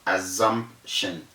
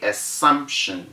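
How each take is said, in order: First: The middle consonant is a buzzing z sound. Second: The middle consonant is a hissing s sound. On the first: The speaker calls it wrong. "not assumption" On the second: The speaker calls it right. "And we say assumption"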